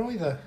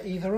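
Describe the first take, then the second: First: Either as EYE-ther; eye variant of either. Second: Either as EE-ther; ee variant of either. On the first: Co-host teasing about two pronunciations, either as EYE-ther. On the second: Co-host teasing about two pronunciations, either as EE-ther. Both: Shown as a demonstration. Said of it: "Or was it a case of".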